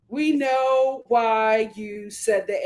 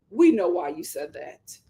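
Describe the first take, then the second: First: We hit, slow and deliberate; slow knowing emphasis on We; stress on We. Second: Said in the usual way. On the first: Shown as a demonstration. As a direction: lean on We, each word spaced out slowly.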